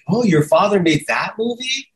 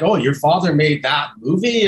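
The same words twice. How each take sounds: First: It sounds impressed. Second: It sounds disgusted.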